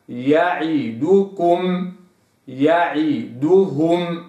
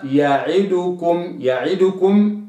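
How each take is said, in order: First: يعدكم slow with pure rounded u; correct recitation. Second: يعدكم with tilted u; wrong reading. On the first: Teacher models word for students, slow and precise. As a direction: recite يعدكم slowly and exactly. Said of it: "هكذا". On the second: Teacher shows the incorrect reading. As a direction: mispronounce يعدكم lazily. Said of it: "أداء غير صحيح". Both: Shown as a demonstration.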